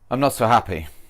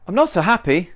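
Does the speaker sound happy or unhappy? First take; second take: unhappy; happy. First: The speaker sounds sad and downcast. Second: The speaker sounds cheerful and smiling.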